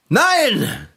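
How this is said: It is said with exaggerated, overdone force.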